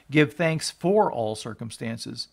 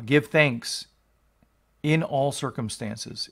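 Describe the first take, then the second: First: Slow, "for" leaned on as the wrong reading: "Give thanks for all circumstances"; stress on for. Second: Slow, with "in" leaned on: "Give thanks in all circumstances"; stress on in. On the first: Preacher showing the congregation the misreading, "for" stressed. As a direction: hang the point on "for", slowly. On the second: Preacher teaching his congregation the verse, "in" stressed. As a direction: give "in" the weight, drawn out. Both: Shown as a demonstration. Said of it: "it does not say".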